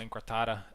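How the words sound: It is said with an English accent. The speaker calls it wrong. "I'm pronouncing a uh, Latin word with with an English... accent"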